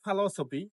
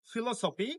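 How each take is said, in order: First: "philosophy" as fa-LO-so-pi; weak first vowel in "philosophy", stress on LO; correct pronunciation. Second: "philosophy" as fi-lo-so-pi; common mispronunciation. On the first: Teacher repeats "philosophy" correctly as fa-LO-so-pi. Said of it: "this is". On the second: Teacher repeats what to avoid, "philosophy" mispronounced as fi-lo-so-pi. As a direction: clear i opening "philosophy". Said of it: "not philosophy". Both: Shown as a demonstration.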